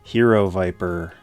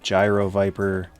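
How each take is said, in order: First: The first word begins with an 'h' sound. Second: The first word begins with a 'j' sound. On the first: The speaker calls it right. "it's actually pronounced Hero Viper" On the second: The speaker calls it wrong. "a lot of people mispronounce this one. They think it's called the Gyro Viper"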